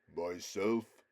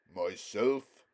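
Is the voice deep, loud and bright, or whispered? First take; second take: deep; loud and bright. First: It is said in a very deep, low voice. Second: It is said loudly, clearly and brightly.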